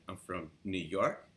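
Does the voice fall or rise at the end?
rise. The voice rises at the end, like a question.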